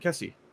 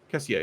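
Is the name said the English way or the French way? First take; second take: English; French. First: The name is said with a plain English pronunciation. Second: The name is said with a French pronunciation.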